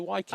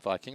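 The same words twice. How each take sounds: First: It is said with a local-sounding pronunciation. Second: It is said with an ordinary English pronunciation. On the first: This is how people here say it. "they say Vikings" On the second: This is not how people here say it. "they don't say Vikings"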